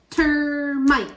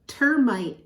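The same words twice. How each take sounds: First: "Termite" in two beats, first one stretched, higher and louder; syllable by syllable. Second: Said in the usual way. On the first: Shown as a demonstration. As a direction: sound out "Termite" emphatically by syllable. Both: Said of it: "Two syllables in termite".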